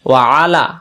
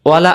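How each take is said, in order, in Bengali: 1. শব্দ দুটো আলাদা আলাদা দুই অংশে বলা হয়। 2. শব্দ দুটো মিশে একটা ছোট শব্দ হয়ে যায়। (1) "আর যদি বলি ওয়া আলা" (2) "আমরা এটা ভুল করি, আমরা বলে ফেলি"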